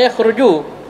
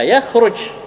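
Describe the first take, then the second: First: The word ends with an added u vowel. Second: The word ends on a bare j consonant. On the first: The speaker calls it wrong. "Jangan yakhruju" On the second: The speaker calls it right. "Ya, yakhruj"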